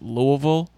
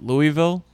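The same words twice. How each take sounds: First: It is said without an 'ee' sound after 'Lou'. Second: It is said with an 'ee' sound after 'Lou'. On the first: The speaker calls it right. "if you don't pronounce it Louisville" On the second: The speaker calls it wrong. "with the E sound, you will get harassed"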